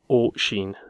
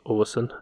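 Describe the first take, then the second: First: The second syllable starts with an 'sh' sound. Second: The second syllable starts with an 's' sound. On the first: The speaker calls it right. "it's O-Sheen" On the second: The speaker calls it wrong. "It's not pronounced O-Sin"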